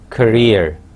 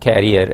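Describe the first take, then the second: First: The word does not sound like 'carrier'. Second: The word sounds like 'carrier'. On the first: The speaker calls it right. "It is career" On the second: The speaker calls it wrong. "not career as some people mispronounce it"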